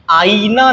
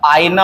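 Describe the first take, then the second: First: आईना said slowly as "aa-ee-naa"; long ई. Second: आईना said as "aay-naa"; short glide. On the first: Teacher showing the mistake, आईना with drawn-out ee. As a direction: stretch the ee in आईना, higher. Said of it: "आईना नहीं होता". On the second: Teacher correcting, आईना shortened to "aay-naa". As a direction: glide through आईना without long ee. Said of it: "आईना होता है". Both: Shown as a demonstration.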